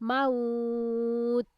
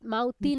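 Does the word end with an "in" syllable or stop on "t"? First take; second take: t stop; in syllable. First: The word stops abruptly on a final "t". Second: The word ends with a full "tin" syllable. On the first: The speaker calls it right. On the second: The speaker calls it wrong.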